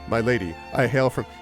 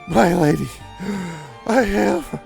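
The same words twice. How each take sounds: First: It is said in a calm, composed voice. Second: It is said out of breath, panting.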